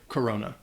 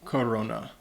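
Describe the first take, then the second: First: It is said with an English accent. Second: It is said with a Spanish accent. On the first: "A lot of native English speakers would just say Corona" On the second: "This is a beer from Mexico, so the pronunciation"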